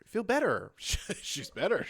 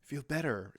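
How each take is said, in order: First: Incredulous echo. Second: Said in the usual way. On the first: Real, not acted.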